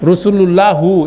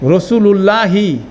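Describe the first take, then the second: First: The word ends with a short u vowel. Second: The word ends with a short i vowel. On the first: The speaker calls it wrong. "এটা কোনো সময় হবে না" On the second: The speaker calls it right. "পুরা হরকত উচ্চারণ করলে কি হবে?"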